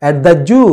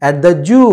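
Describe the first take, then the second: No difference in how they are said.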